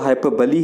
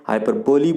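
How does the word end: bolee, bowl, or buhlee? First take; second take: buhlee; bolee. First: It ends with a reduced 'buh-lee' sound. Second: It ends with a full 'bo-lee' sound. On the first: The speaker calls it right. "इसका जो correct pronunciation है वो हाइपरबली है" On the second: The speaker calls it wrong. "हाइपरबोली बोलते हैं"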